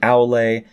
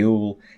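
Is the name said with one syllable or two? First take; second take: two; one. First: The name is said with two syllables. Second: The name is said with one syllable. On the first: The speaker is seen as a true fan. "if you are a true Tolkien fan, you'll say Aule" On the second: The speaker is seen as a fake fan. "if you're a fake fan, you'll say Aul"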